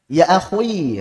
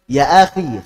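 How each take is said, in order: First: Akhui with an overly rounded wrong khui; wrong over-thick. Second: Akhi with a clean, light khi; correct version. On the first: Teacher showing students the wrong over-thick sound. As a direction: say akhui too heavy, like a mistake. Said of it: "Jadi jangan sampai". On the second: Teacher showing students the correct akhi. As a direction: say akhi clear, not rounded. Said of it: "Yang betul". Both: Shown as a demonstration.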